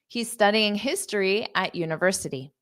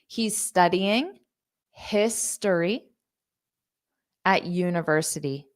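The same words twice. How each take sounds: First: The sentence is said quickly. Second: The sentence is said slowly. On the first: "I'll say it fast" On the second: "Now I'll say it slow"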